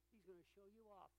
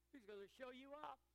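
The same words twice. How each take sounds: First: Said in the usual way. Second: Emphatic repeat. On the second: Acted. Repeated line, louder second take.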